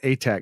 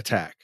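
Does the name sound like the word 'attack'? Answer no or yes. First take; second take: no; yes. First: The name does not sound like 'attack'. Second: The name sounds like the word 'attack'. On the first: The speaker calls it right. "it's John Atack" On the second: The speaker calls it wrong. "not Attack"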